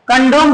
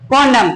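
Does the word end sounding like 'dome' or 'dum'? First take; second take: dome; dum. First: The word ends with a long 'dome' sound. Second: The word ends with a short 'dum' sound. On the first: The speaker calls it right. "कंडोम बोला जाता है" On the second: The speaker calls it wrong. "कॉन्डम नहीं इसको बोला जाता है"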